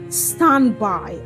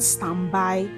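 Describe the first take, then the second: First: The stress is on the first syllable. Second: The stress is on the second syllable. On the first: The speaker calls it right. "the stress is often placed on the first syllable" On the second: The speaker calls it wrong. "and not standby"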